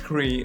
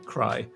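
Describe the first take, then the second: First: The name rhymes with 'free'. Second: The name rhymes with 'fly'. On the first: The speaker calls it right. "Now I know it's Cree" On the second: The speaker calls it wrong. "I was about to pronounce them cry"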